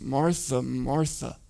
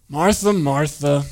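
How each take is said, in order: First: The name is said in a gentle, caring tone. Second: The name is said in an exasperated, condescending tone. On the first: The speaker cares about her worries. The speaker calls it right. "it's a compassionate response" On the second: The speaker is annoyed by her worries. The speaker calls it wrong. "He's not saying"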